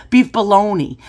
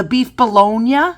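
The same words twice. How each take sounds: First: Bologna ending in "nee"; bologna said as baloney. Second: BOLOGNA ending in "nya"; bologna said as spelt. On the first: Laughing correction of the customer's beef bologna, bologna said as "baloney". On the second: Acting a deli customer asking what's on sale, bologna ending in "-nya". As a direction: say bologna as "buh-LONE-yuh", questioning. Corrects herself, laughs, says it again. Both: Retold or imitated.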